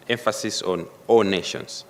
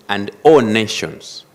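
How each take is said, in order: First: Said in the usual way. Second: "all" punched louder and slow, falling on "nations"; stress on all nations. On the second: Shown as a demonstration. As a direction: hit "all" hard and slowly in "all nations".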